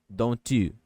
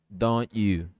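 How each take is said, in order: No difference in how they are said.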